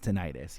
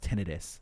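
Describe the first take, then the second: First: It is said the everyday, common way. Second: It is said the medical, clinical way. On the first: "the regular human being one is tinnitus" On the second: "the medical pronunciation is tinnitus"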